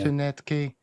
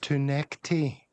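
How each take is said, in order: First: The second syllable sounds like 'net'. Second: The second syllable sounds like 'neck'. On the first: The speaker calls it wrong. "not to net key" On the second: The speaker calls it right. "Someone's obviously said to him, listen, it's it's to neck tea"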